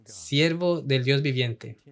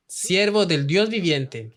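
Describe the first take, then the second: First: Slow, with Siervo leading; stress on Siervo. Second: Slow, with Dios lifted and held; stress on Dios. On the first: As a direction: Siervo as the weighted word, slow. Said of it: "Lo usa conti-, continuamente". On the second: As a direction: lean on Dios, slowly. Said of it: "aún así lo llama Dios viviente". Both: Shown as a demonstration.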